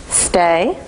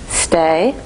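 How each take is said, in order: Both takes have the same delivery.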